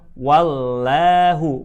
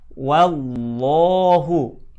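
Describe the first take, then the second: First: The 'lah' sounds thin and bright, like 'la'. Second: The 'lah' sounds full and dark, near O. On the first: The speaker calls it wrong. "bukan wallahu" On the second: The speaker calls it right. "dibaca tebal"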